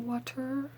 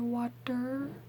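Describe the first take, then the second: First: The middle consonant is a clear T sound. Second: The middle consonant is a soft D sound. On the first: "I don't say water" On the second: "I say water with a D"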